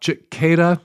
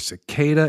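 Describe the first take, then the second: First: The word begins with a ch sound. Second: The word begins with an s sound. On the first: The speaker calls it wrong. "not cicada, as I pronounced it last week" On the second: The speaker calls it right. "pronounced with an S, not a ch"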